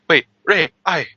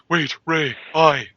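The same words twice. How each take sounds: First: It is said in an ordinary, unbreathy voice. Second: It is said in a breathy, breathed-out voice.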